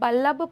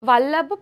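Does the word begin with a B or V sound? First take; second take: B; V. First: The word begins with a B sound. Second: The word begins with a V sound. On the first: People in some regions say it this way. "కొన్ని కొన్ని ప్రాంతాల్లో వాని బా కింద pronounce చేస్తారు" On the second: This is how we say it. "మనం వా అంటాము"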